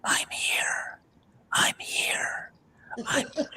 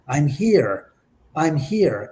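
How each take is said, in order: First: Very quiet whisper, right on the mic; whispery spirit voice. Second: Said in the usual way. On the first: Shown as a demonstration. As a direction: whisper it close, like a ghostly voice on tape. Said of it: "a very quite whispery voice".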